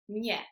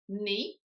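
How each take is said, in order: First: The n is soft, like Spanish ñ. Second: The n is a plain English-like n. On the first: The speaker calls it right. "it's actually pronounced nie" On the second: The speaker calls it wrong. "not pronounced ni"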